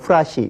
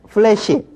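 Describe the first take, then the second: First: It is said as peurasi, with an 'a' vowel. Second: It is said as peulaesi, with an 'ae' vowel. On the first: The speaker calls it wrong. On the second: The speaker calls it right.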